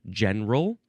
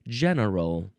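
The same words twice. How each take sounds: First: The word is said with two syllables. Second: The word is said with three syllables. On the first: "some people do two or three syllables" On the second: "some people do two or three syllables"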